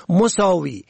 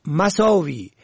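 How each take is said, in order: First: مساوی said "mosawi"; rounded o after m in مساوی; zamma on first. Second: مساوی said "masawi"; fatha on first. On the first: Teacher shows مساوی for "equal", pronounced mosawi. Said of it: "به ضم اول". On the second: Teacher shows مساوی for "badness", pronounced masawi. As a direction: open a after m in مساوی. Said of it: "به فتح اول". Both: Shown as a demonstration.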